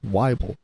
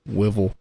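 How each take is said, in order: First: The first syllable rhymes with Bible. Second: The first vowel does not rhyme with Bible. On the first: The speaker calls it right. "but it's Weibel. ... it's like Bible" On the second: The speaker calls it wrong. "I've had my last name pronounced wrong"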